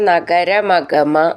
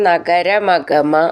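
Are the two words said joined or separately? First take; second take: joined; joined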